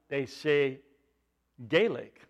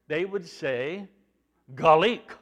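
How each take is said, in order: First: The first vowel is an 'ay' sound. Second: The first vowel is not an 'ay' sound. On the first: This is how it is said in the north. "In the northern part of Ireland" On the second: This is how it is said farther south. "They would emphasize it, but it wouldn't be an A sound"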